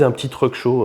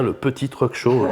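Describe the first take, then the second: First: Said in the usual way. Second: A light underline on "petit"; stress on PETIT. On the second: Retold or imitated. Retelling the organiser's invitation to the show, stress on "petit". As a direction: point up the word "petit" so it gets noticed. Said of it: "notez bien".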